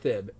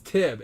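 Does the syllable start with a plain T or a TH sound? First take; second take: TH sound; plain T. First: The syllable starts with a TH sound. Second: The syllable starts with a plain T sound. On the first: The speaker calls it wrong. "It's not Thib" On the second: The speaker calls it right. "So it's Tib"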